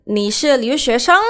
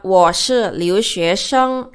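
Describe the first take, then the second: First: Higher pitch, lifting up on "sheng" to ask; question by rising tune. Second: Slow, measured answer stepping down on "sheng"; statement, falling tune. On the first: Teacher shows asking without the particle ma, rising intonation. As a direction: turn it into a question with "sheng" going up. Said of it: "itu kan jadi naik". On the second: Teacher models the answer to the question, falling intonation. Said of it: "Jadi ke bawah, jadi turun". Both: Shown as a demonstration.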